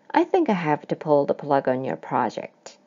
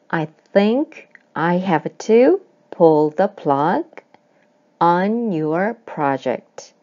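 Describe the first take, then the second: First: The sentence is read at a fast pace. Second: The sentence is read at a slower pace.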